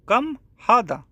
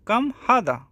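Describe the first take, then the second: No difference in how they are said.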